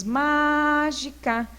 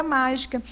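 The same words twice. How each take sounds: First: MÁGICA with a long, held MÁ; teacher drawing out mágica to show its strong syllable; stressed first syllable. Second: Said in the usual way. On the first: Shown as a demonstration. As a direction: stretch the MÁ in mágica, then drop the rest. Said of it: "Qual que é mais forte?". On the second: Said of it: "sílaba que é tônica".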